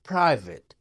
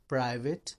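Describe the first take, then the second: First: The p has a slight puff of air. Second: The p is plain, with no puff of air. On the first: The speaker calls it right. "फ है थोड़ा सा" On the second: The speaker calls it wrong. "प जैसे प उर्दू में होता है"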